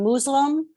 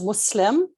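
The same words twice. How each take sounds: First: The middle consonant is a buzzing z sound. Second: The middle consonant is a hissing s sound. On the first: It sounds derogatory. The speaker calls it wrong. "comes off as very derogatory, um, and it's not with a Z" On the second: It is the respectful form. The speaker calls it right.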